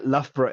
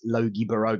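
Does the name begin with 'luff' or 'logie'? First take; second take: luff; logie. First: The name begins with a 'luff' sound. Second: The name begins with a 'logie' sound. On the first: The speaker calls it right. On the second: The speaker calls it wrong.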